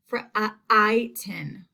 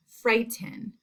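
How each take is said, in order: First: Frighten broken up as fr-, uh, I-ten; sounded-out long I. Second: Said in the usual way. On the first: Shown as a demonstration. Teacher shows the class the long I, sounded out. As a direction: stretch the I in frighten apart from the other sounds. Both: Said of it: "The I sound is in the beginning".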